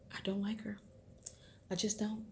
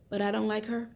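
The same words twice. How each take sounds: First: Breathy whisper, no voice at all. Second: Said in the usual way. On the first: Real, not acted. Vlogger confides her dislike of the mother, whispering. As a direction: let it slip out as a secret whisper.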